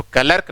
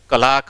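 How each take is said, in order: First: क्लर्क as "ka-lerk", with the r sounded; short vowel and clear r before k in क्लर्क; wrong pronunciation. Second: क्लाक with a long aa and silent r; correct pronunciation. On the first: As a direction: put an audible r in क्लर्क. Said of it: "तो क्लर्क नहीं". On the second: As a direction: drop the r and lengthen the vowel in क्लाक. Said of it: "क्लाक होता है". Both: Shown as a demonstration.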